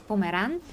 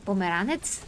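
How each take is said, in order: First: "Pomeran" said the Bulgarian way, ending on -an; Bulgarian word form. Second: "Pomeranets" said the Macedonian way, with a final -ets; Macedonian word form. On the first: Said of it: "in Bulgarian, Pomeranian is Pomeran". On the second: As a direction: add a crisp ts to end "Pomeranets". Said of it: "but in Macedonia is Pomere". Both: Shown as a demonstration.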